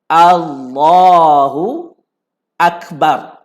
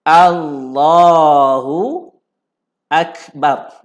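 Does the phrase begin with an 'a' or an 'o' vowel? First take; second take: a; a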